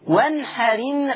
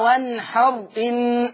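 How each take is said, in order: First: The glottal stop is dropped, linking r to in. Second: The glottal stop is pronounced, keeping the words apart. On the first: The speaker calls it right. "شيل الهمزة، انقل الحركة بتاعتها للحرف الساكن اللي قبل منها" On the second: The speaker calls it wrong. "مش بقى وانحر ان"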